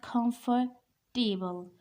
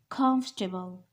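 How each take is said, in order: First: The stress falls on the 'table' part. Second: The stress falls on the first syllable. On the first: The speaker calls it wrong. "This is not comfortable. We are not talking about table here" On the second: The speaker calls it right. "The stress is on first syllable"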